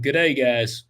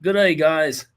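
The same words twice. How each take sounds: First: Said in the usual way. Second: Attempted Aussie greeting, a bit put on; Australian accent. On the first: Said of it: "I wanted to read it like". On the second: Host reading listener email in Australian accent. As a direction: play an Aussie host saying hello. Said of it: "in an Australian accent".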